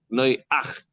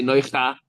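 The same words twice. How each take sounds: First: "Noyach" drawn out slowly as noy-ACH; vowel first, then guttural ch closing "Noyach"; slow, split "Noy-ach" with throaty ending; correct vowel order. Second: "Noycha" ending on an open "cha"; wrong vowel order. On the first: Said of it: "You say Noyach". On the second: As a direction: put the vowel after the guttural: "Noycha". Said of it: "You don't say Noycha". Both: Shown as a demonstration.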